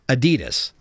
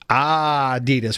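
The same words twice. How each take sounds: First: The stress is on the second syllable. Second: The stress is on the first syllable.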